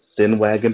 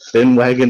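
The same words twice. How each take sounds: First: The first sound is a clear s. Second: The first sound is a lisped th.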